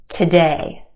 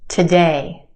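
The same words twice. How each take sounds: The two takes are said the same way.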